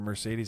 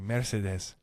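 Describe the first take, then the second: First: It is said in the speaker's usual accent. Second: It is said in an imitated Persian accent.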